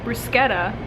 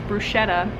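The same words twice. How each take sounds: First: It is said with the Italian pronunciation. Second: It is said with a common anglicized pronunciation. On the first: The speaker calls it right. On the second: The speaker calls it wrong.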